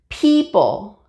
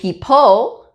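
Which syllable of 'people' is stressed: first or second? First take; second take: first; second. First: The stress is on the first syllable. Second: The stress is on the second syllable. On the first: The speaker calls it right. "the syllables P is a little bit stronger than the second syllable" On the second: The speaker calls it wrong. "We don't say people"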